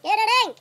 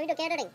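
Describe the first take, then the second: First: Loud, high shout of the word "Catering!". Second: Said in the usual way. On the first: Retold or imitated. Waiter shouting "Catering!" at the confused customer. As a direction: bark "Catering!" back at him. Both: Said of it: "we were shouting".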